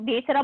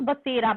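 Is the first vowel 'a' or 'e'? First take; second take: e; a. First: The first vowel is a long 'e' sound. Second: The first vowel is a short 'a' sound. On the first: The speaker calls it wrong. "अब आप बेसरा बोलोगे तो फिर ma'am meaning नहीं बता पाएंगी ना" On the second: The speaker calls it right. "वो स के ऊपर मात्रा है ना, तो बसेरा"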